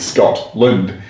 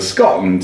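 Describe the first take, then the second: First: The t in the middle is clearly pronounced. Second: The t in the middle is dropped silently. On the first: The person is not from Scotland. "they're pronouncing it Scotland" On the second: The person is local to Scotland. "They just totally remove the T. It becomes silent"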